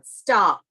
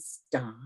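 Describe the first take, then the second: First: The word is said loudly and abruptly. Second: The word is said quietly and softly. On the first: "increase the loudness of just one word" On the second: "reduce it by, if I'm talking like this"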